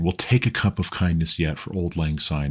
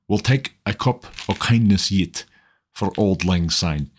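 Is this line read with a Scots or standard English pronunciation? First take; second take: standard English; Scots. First: It is read with a standard English pronunciation. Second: It is read with a Scots pronunciation. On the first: "the standard English version" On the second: "in the Scots, as Scots speakers would sound"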